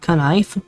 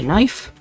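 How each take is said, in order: First: The K at the start is pronounced. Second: The K at the start is silent.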